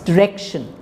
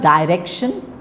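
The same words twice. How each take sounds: First: The stress falls on the second syllable. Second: The stress falls on the first syllable. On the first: The speaker calls it right. "it's direction" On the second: The speaker calls it wrong. "It's not direction"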